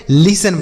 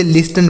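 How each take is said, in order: First: लिसन with no T sound; silent T. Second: लिस्टन with the T sounded; wrong pronunciation. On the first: Teacher giving children the proper reading, लिसन with silent T. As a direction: say लिसन as "lis-en", S straight into the vowel. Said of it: "यहाँ पे टी silent है". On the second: Teacher showing children a wrong reading, लिस्टन with sounded T. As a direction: say लिस्टन as spelt, "lis-ten" with an audible T. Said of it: "यह गलत उच्चारण होगा". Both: Shown as a demonstration.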